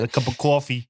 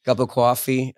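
First: Put-on New York accent. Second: New York accent. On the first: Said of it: "that New York accent". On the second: Shown as a demonstration. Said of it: "these accents come out".

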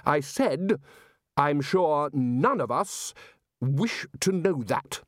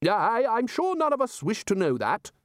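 First: Slow, emphatic repeat; a firmer, spaced-out repeat; louder repeat. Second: High blustering interruption; high, huffy wizard interrupting; Ridcully bluster. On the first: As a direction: say it again, firmly and slowly. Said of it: "repeated in a louder voice". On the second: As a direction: cut in with pompous bluster. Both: A narrator's reading.

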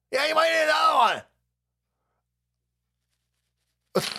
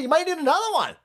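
First: Mock shout. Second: Higher, sing-song mock of the official; mock warning. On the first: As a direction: yell the warning as a joke. Mocking the official, louder. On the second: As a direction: tease the warning lightly. Mocking the health official.

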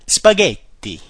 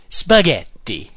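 First: Italian flair. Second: Spaghetti slow and showy with an Italian accent; Italian flair. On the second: Teacher hamming up Italian flair on Spaghetti. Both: Shown as a demonstration. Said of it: "with the Italian flair".

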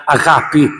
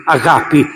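No difference in how they are said.

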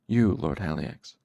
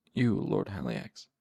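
First: Pained, submissive answer; shred of pain. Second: Slow, subdued answer; pained submission. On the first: Cinder answers his tormentor, in pained submission. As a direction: force the answer out through pain. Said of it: "Cinder's voice was a quiet shred of pain". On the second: Cinder answers his master, hunched over, slowly submissive. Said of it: "Cinder wrapped shaking arms around his midsection". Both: A narrator's reading.

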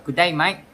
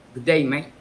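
First: Twangy, higher-pitched, louder Australian greeting; Australian accent. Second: Dry Cockney "good day, mate"; Cockney accent. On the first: Podcast guest contrasting it with Cockney, twangy high Australian accent. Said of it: "it sounds a bit twangy. It's high pitched, so it will sound like". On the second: Podcast guest showing Cockney for comparison, dry Cockney accent. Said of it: "for a Cockney accent, it sounds a bit dry, it sounds a bit deeper". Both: Shown as a demonstration.

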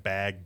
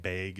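First: Said in the usual way. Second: "bag" with the vowel raised toward "beyg"; Upper Midwest accent. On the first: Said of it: "people say different words wrong". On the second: Shown as a demonstration. Guest showing how locals say words wrong, Upper Midwest "bag" as "beyg". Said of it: "that type of accent up here".

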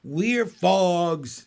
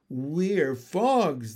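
First: Loud little frog yell; froglets screaming. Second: Mildly raised, measured chorus voice; froglets in unison. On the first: Froglets announce themselves to parents, loud screaming. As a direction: belt it out as a chorus of young frogs. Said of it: "screamed the froglets". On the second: Froglets answer who they are, in unison. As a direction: announce it together as little frogs. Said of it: "they said together". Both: A narrator's reading.

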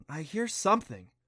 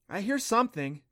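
First: Hesitant. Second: Put-on raised, hushed girl's voice, unsure; a hint of a girl listening hard; lightly voiced girl. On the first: Clancy to Adam, a hesitant repeat. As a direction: say it again, doubting yourself. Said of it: "Clancy repeated hesitantly". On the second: Clancy to Adam, a lightly voiced unsure girl. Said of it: "Clancy replied, stopping". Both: A narrator's reading.

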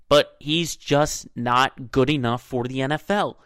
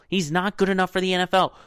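First: Said in the usual way. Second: "not good enough" higher and faster, falling on "N F L"; emphatic repeat. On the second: Real, not acted. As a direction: push "not good enough" up and quicker, drop on "N F L". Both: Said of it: "repeats the line with more force".

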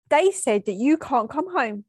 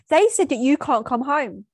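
First: A hint of a tattling child; lightly voiced kid reporting on someone; little kid telling. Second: Louder angry retort; angry, spat out. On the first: Daughter to her sick mum, like a kid telling. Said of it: "like a little kid telling someone". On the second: Retold or imitated. Daughter to her sick mum, spitting it out angrily. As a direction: spit it out in anger, louder. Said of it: "I spit out angrily".

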